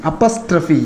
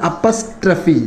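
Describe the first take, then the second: Both takes have the same delivery.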